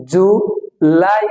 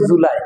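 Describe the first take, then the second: First: জুলাই split slowly, ju then a long lai; drawn-out "lai". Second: জুলাই said quickly as one word, unstretched; plain quick জুলাই without drawing out the end; everyday local July. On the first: Teacher showing correct July, জুলাই slow with long lai. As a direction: stretch the lai of জুলাই, rising. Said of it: "লাইতে আসলে একটু টেনে বলতে হবে". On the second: Teacher quoting how we usually say it, short জুলাই. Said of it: "আমরা বলি জুলাই". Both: Shown as a demonstration.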